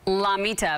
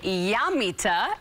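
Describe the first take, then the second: First: The word begins with a plain L sound. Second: The word begins with a Y-like sound. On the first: The speaker calls it wrong. "So I would probably say Llamita" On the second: The speaker calls it right. "but really to pronounce it, you say Llamita"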